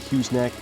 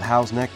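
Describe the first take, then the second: First: The first word sounds like 'Hughes'. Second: The first word sounds like 'Howes'. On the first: This is how the speaker sometimes says it. "but sometimes I say Hughes Neck" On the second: This is the place's actual name. "It's actually called Howes Neck"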